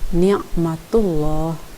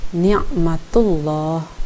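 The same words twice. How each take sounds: Both takes have the same delivery.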